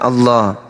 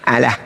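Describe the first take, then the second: First: It has the full Arabic sounds, with heavy doubled l. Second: It has plain Indonesian sounds, with a light single l. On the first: It marks the word as belonging to Islam. The speaker calls it right. "Kita membacanya Allah" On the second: It hides that the word belongs to Islam. The speaker calls it wrong. "Mereka supaya menghilangkan identitas kalau ini kepunyaan Islam, dibacanya apa?"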